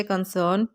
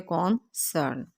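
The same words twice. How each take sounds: First: Said in the usual way. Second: concern slowly, as con, cern; split into syllables. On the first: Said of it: "ये इसकी pronunciation है". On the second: Shown as a demonstration. Teacher shows two syllables, concern slowly split as con-cern. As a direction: break concern into two beats with a gap. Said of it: "इसके syllable दो होते हैं".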